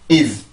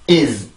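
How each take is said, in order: No difference in how they are said.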